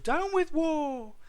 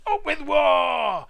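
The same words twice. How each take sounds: First: Very high, drawn-out hoot; small duckbill's piping protest. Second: High, very loud, slow shout; full-voiced tyrannosaur chant. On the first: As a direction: hoot slowly, far up in pitch. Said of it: "he hooted". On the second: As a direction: bellow a drawn-out war cry. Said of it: "they shouted". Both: A narrator's reading.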